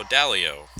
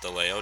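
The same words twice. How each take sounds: First: Dalio, starting with "DAL" as in pal; corrected pronunciation. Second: DeLeo, the mistaken name starting "deh-LAY"; wrong pronunciation. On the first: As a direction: say Dalio carefully as the right name. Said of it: "Trying to pronounce your name right". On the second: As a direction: say DeLeo as the slip being corrected. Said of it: "I tried to pronounce your name". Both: Shown as a demonstration.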